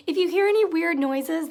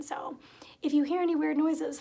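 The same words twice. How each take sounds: First: Said in the usual way. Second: If you hear any weird noises whispered without voice. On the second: Real, not acted. Warning viewers about her cat, whispered aside. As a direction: whisper it softly.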